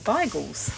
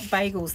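First: The word is said the East London way. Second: The word is said the common everyday way. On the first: The speaker calls it right. "That's the correct pronunciation" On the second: The speaker calls it wrong. "that's what everyone calls them"

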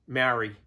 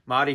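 First: The word is said with English-style vowels and sounds. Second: The word is said with Māori vowels and sounds.

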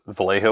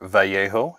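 First: It is pronounced the English way. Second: It is pronounced the Spanish way. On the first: The speaker calls it wrong. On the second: The speaker calls it right.

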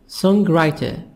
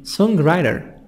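First: It is said in a British accent. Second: It is said in an American accent.

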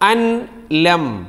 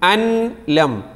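No difference in how they are said.

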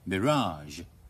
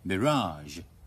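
First: The stress is on the second syllable. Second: The stress is on the second syllable.

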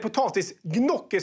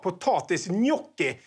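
First: Gnocchi is pronounced in a Swedish-like way. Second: Gnocchi is pronounced in an Italian-like way.

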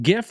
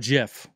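First: The word starts with a hard G sound. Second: The word starts with a soft J sound. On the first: "How do you pronounce it? GIF or JIF?" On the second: "the creator has gone on record to say it is pronounced JIF"

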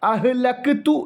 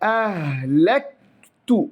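First: The k sound is released with an echoing bounce. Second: The k sound joins smoothly into the t. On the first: The speaker calls it wrong. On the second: The speaker calls it right.

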